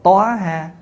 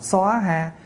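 First: Two syllables, starting with a rounded 'toa' sound. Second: Two syllables, starting with a rounded 'soa' sound. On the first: "có chỗ đọc là" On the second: "có chỗ đọc là"

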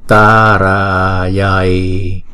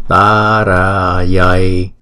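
No difference in how they are said.

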